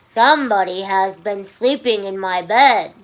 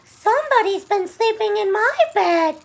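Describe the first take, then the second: First: The voice is low and growly. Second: The voice is high and squeaky. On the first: "in his low, growly voice" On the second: "squeaked Baby Bear"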